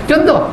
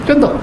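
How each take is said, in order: The two takes are said the same way.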